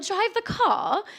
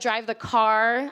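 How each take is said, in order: First: A posh British accent with the R dropped. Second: An American accent with the R pronounced. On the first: "This is a really bad posh accent" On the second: "as I would say"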